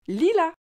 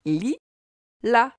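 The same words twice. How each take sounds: First: Said in the usual way. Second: "Li, la" as two separate syllables; split into syllables. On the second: Shown as a demonstration. Teacher showing both L sounds to a child, syllable by syllable. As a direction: break lilas into li... la, pausing between. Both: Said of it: "as-tu remarqué que dans lilas".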